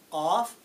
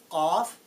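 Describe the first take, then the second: No difference in how they are said.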